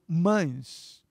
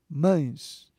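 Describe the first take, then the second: First: The word has a nasal diphthong vowel. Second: The word has a nasal diphthong vowel.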